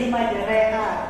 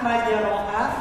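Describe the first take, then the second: First: The vowel after r sounds like 'e'. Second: The vowel after r sounds like 'a'. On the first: "maka kita mengambil huruf vokal tengahnya yaitu e" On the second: "harusnya majeroha"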